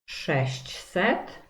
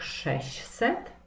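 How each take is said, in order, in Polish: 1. Każda spółgłoska w środkowej grupie jest wymawiana. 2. Dźwięk ć w środku jest pomijany.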